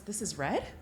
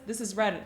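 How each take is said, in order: First: It is said as a question, rising. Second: It is said as a flat statement, falling.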